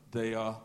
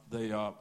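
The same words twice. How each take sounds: The two takes are said the same way.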